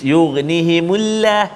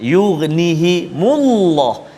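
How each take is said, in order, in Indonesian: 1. L dalam 'llah' nipis dan ringan. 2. L dalam 'llah' tebal dan berat. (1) "tak boleh baca nipis" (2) "lam baris depan"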